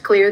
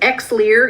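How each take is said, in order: First: The starting X is silent, like clear. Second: The starting X is sounded aloud. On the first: The speaker calls it right. "it's pronounced clear. The X is silent" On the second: The speaker calls it wrong. "many people pronounce it Xlear"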